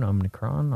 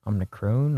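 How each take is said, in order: First: Omnicron ending in an open "cron" sound; tentative Omnicron, last syllable rhyming with "on", rising; quiet try at Omnicron with "ah" in the last syllable; trying a pronunciation. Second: Omnicron ending in a long "crone" sound; tentative Omnicron, last syllable like "crone", rising; quiet try at Omnicron with "oh" in the last syllable; trying a pronunciation. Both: Shown as a demonstration. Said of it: "if I'm saying it right".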